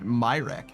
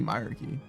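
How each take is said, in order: First: The word ends with a short 'reck' sound. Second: The word ends with an 'arky' sound. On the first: This is the habitual pronunciation. "I always pronounce it Myrek" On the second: This is the suggested alternative pronunciation. "but it could be myarchy"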